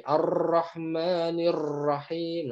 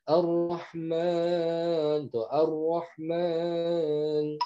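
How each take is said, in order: First: Ar-Rahmanir Rahim with the r rolled too long; over-trill every r in Ar-Rahmanir Rahim, slowly; Ar-Rahmanir Rahim with an exaggerated rolling r; wrong reading. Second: Ar-Rahman drawn out with a full heavy r; Ar-Rahman with a thick tafkhim r, slow and rounded. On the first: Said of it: "contoh baca salah gini". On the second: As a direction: say Ar-Rahman slowly, back of the tongue raised. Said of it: "Contoh ro fathah". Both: Shown as a demonstration.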